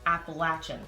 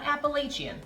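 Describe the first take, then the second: First: It is said the local North Carolina way. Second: It is said the New York way. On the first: The speaker calls it right. "New Yorkers, this is how it's pronounced. It's Appalachian" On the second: The speaker calls it wrong. "Not Appalachian. That's right, I grew up saying that"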